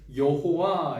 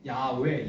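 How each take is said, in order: First: The name is pronounced with three syllables, ye-ho-wa. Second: The name is pronounced with two syllables, ya-we. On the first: It is a forced reading that arose late. The speaker calls it wrong. "억지로 해서 이제 여호와 이렇게 된 거예요" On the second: It is the reading handed down by early tradition. The speaker calls it right. "야외, 야베 뭐 이렇게 약간 그런 발음인데요"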